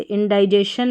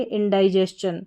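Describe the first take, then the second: First: "इंडाइजेशन" with a plain शन ending; wrong pronunciation. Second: "इंडाइजेशन" with a स-चन ending; correct pronunciation. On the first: Teacher warning how not to read it, wrong pronunciation. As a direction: misread "इंडाइजेशन" as in-dai-jay-shun. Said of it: "इंडाइजेशन नहीं पढ़ेंगे". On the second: Teacher giving the right reading of indigestion, correct pronunciation. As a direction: say "इंडाइजेशन" as in-dai-jes-chun, not jay-shun. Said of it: "ये इसका सही उच्चारण है". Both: Shown as a demonstration.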